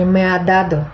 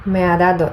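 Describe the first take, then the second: First: "me ha dado" with the "ha" still just audible; "me ha dado" as a native says it, lightly joined; native-speaker phrasing. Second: "me ha dado" quicker, the "ha" swallowed into "me"; "me ha dado" merged so the middle "a" nearly vanishes; words run together. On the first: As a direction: say "me ha dado" linked, each word present. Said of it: "Коли говорить носій, він каже". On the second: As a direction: blur "me ha" into one glide in "me ha dado". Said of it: "настільки зливаються ці, що ми не відчуваємо". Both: Shown as a demonstration.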